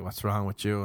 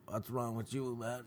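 First: Said in the usual way. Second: Strained, much softer voice; neck pulled back. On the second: Retold or imitated. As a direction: squeeze it out with your neck tensed back. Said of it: "my neck was all back".

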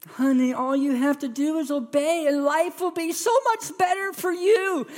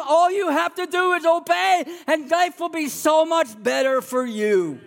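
First: Put-on high, sing-song coaxing of a child; sing-song parent. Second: High, sing-song coaxing; God coaxing his child like a parent; God coaxing his children, high and sing-song. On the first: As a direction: lift it high like a sweet-talking parent. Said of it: "You ever done that with your kids? It's just like". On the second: Retold or imitated. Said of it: "And God says that too".

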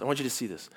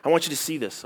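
First: Softer repeat. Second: Said in the usual way. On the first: Real, not acted.

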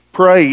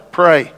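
First: Louder repeat. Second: Said in the usual way. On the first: Shown as a demonstration. Preacher urges the church, louder insistence. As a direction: punch the second Pray harder.

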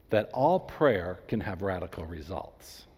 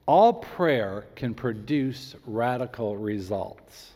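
First: Said in the usual way. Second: Slow and measured, each word placed; slow, careful. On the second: Shown as a demonstration. Pastor to congregation, slow careful emphasis. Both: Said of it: "I'm choosing my words very carefully".

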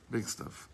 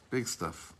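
First: Big stuff whispered with no voice; hushed whisper echo. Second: Said in the usual way. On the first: Shown as a demonstration. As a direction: drop to a breathy whisper for emphasis.

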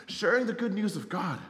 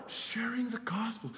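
First: Said in the usual way. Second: Slow breathy whisper, no voice; hushed reverent whisper; whispered answer. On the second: Real, not acted. Answers his own question.

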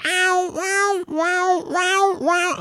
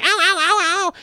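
First: High, spaced-out wheezing mock howls; cartoon accordion cat yowl. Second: Quick, high run of mock cat howls; ordinary cat yowl. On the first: Owner imitating the cat all accordion shaped, cartoon yowling. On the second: Owner showing what the squashed cat didn't do, quick mock yowling. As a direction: yelp rapidly like a hurt cat. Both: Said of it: "all accordion shaped and shit".

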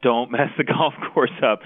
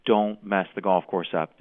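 First: Louder, higher repeat with a laugh. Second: Said in the usual way. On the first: Retold or imitated. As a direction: laugh through the repeated plea. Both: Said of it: "the players kept saying".

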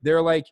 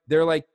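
No difference in how they are said.

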